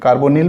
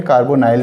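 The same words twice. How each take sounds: First: कार्बोनिल ending in a short "nil"; -nil pronunciation. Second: कार्बोनाइल ending like "nile"; -nile pronunciation. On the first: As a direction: say कार्बोनिल with short i in the last syllable. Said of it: "कार्बोनिल भी बोलते हैं". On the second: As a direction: say कार्बोनाइल with a long "eye" in the last syllable. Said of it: "कार्बोनाइल भी बोलते हैं". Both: Shown as a demonstration.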